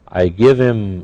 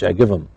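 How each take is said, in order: First: Him is said in full with its h. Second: Him is heavily reduced and run together.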